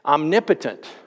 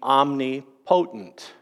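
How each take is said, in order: First: The word is said at normal speed. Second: The word is said slowly, drawn out.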